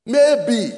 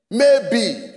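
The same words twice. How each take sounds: The two takes are said the same way.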